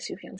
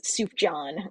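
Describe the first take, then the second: First: The middle consonant is not an English J sound. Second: The middle consonant is an English J sound. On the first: The speaker calls it right. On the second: The speaker calls it wrong.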